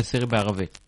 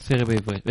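First: Corrected to סירי בערבית, meaning Arabic; בערבית said as aravit, the Arabic language; corrected word. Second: Says סירי בעברית, meaning Hebrew; בעברית said as ivrit, the Hebrew language; wrong word. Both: Real, not acted. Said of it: "אה, סירי בערבית".

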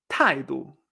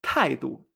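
First: "taidu" again, two falling tones; taidu, two sharp falls; repeated model. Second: "taidu" with both syllables falling; two falling tones. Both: Shown as a demonstration. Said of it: "Actitud es".

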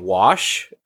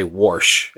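First: Said in the usual way. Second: "warsh" with an R before the sh; Midwestern "warsh". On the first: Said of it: "instead of saying wash". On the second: Shown as a demonstration. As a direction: put a Midwestern R into wash: "warsh". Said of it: "a lot of Midwesterners say warsh".

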